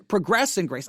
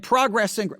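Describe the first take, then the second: First: Progress said pruh-GRESS, second syllable stressed; verb pronunciation. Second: Progress said PROG-ress, first syllable stressed; noun pronunciation. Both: Shown as a demonstration. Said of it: "would probably be the right way".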